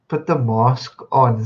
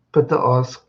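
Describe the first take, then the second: First: Slow, lightly voiced mimic of Cyril's mask line; a light touch of Cyril, drawn out; Cyril style. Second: Said in the usual way. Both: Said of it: "Cyril style".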